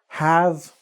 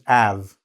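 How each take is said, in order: First: The word begins with a clear h sound. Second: The word begins with no h sound.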